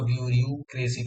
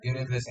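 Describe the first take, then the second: First: Each vowel is sounded fully, letter by letter. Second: The vowels are reduced in the everyday way. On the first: It helps remember the spelling. "हम इसको ब्यूरियू क्रेसी पढ़ते हैं" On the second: This is how it is normally spoken. "ब्यूरोक्रेसी नहीं"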